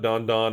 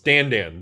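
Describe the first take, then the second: First: The vowel sounds like the 'o' in 'on'. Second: The vowel sounds like the 'a' in 'an'. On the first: The speaker calls it wrong. "it's not Don Don" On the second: The speaker calls it right. "it's Dan Dan, Rudy pronunciation"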